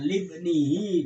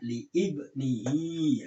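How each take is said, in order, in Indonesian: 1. Kedua bagian itu menyatu tanpa jeda. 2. Kedua bagian itu dipisahkan oleh hamzah. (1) "Kalau dibaca libnihi itu boleh" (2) "yang benar itu dibaca li ibnihi"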